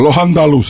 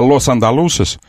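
First: The first word ends in a breathy h sound. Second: The first word ends in a clear s sound. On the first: "в переходах между словами они уходят на хэ вместо с" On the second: "вместо лос андалусес"

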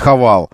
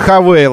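First: The second syllable is said 'val'. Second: The second syllable is said 'veyl'. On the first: The speaker calls it wrong. "а не Хавал никакой" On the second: The speaker calls it right. "А Хавейл все же Хавейл"

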